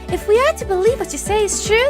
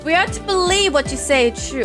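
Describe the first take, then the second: First: It is said in a put-on female character voice. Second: It is said in the speaker's normal voice.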